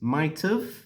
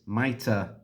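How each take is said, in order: First: It ends with a short 'v' sound. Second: It ends in a weak 'uh' vowel. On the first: "The contracted form of this is" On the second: "the reduced form is"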